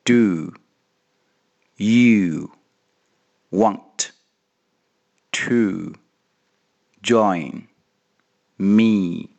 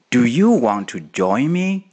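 First: It is said slowly. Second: It is said at normal speed.

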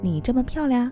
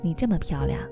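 First: It ends with a rise, like a question. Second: It ends with a fall, like a statement.

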